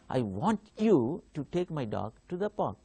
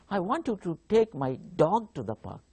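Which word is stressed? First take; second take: you; dog. First: The stress falls on the word you. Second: The stress falls on the word dog. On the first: The listener is the one who should take the dog. "I give a stress on you" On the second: The dog, not the cat, should go to the park. "if I give stress on dog"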